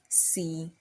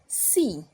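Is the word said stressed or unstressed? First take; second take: unstressed; stressed. First: The word is said without stress. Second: The word is said with stress. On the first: It means if. "There is no stress on it" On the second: It means yes. "the one with the accent"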